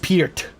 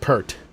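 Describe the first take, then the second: First: The vowel sounds like the one in 'peer'. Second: The vowel sounds like the one in 'purr'. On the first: The speaker calls it right. "It's [name]" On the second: The speaker calls it wrong. "not Pert. A lot of people would say it's Pert"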